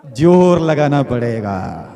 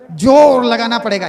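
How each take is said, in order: First: "जोर लगाना पड़ेगा" slow and lower, vowels stretched; drawn-out emphasis. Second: "जोर लगाना पड़ेगा" higher, with a punched "जोर"; forceful exhortation. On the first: Preacher models the effort needed. ("जोर लगाना पड़ेगा" धीरे, खींचकर, नीचे सुर में) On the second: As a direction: drive "जोर लगाना पड़ेगा" home at a raised pitch. Preacher repeats it with force. ("जोर लगाना पड़ेगा" ऊँचे सुर में, पूरे ज़ोर से) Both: Shown as a demonstration.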